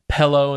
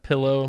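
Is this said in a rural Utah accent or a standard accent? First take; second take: rural Utah; standard. First: It is said in a rural Utah accent. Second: It is said in a standard general accent. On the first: "you'll hear" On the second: "instead of"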